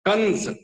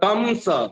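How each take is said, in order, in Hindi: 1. अनुस्वार स्थानीय सामान्य ढंग से बोला जाता है। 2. अनुस्वार दक्षिण भारतीय ढंग से बोला जाता है। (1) "आज हमारे यहाँ कंस ... इस ढंग के उच्चारण हो रहे हैं" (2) "दक्षिण जाइए तो कंस ... इस ढंग के उच्चारण होते हैं"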